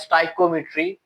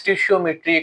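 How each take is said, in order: First: The word begins 'sty-ko', with a long i sound. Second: The word begins 'stish-ee-o', with a sh sound. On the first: "कुछ पढ़ते हैं स्टाइकोमेट्री" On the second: "कुछ लोग इसको पढ़ते हैं स्टिशियोमेट्री"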